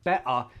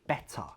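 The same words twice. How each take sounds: First: The middle T is a glottal stop. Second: The middle T is a clear, released T. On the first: "Glottal T" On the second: "if I pronounce better with a true T"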